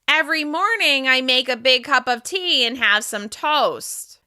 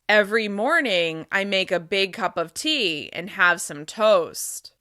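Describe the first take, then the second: First: The voice resonates through the nose, sounding nasal. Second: The voice resonates low, in the chest. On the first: "Now I'm going to speak with nasal resonance" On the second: "Now I'm going to speak with chest resonance"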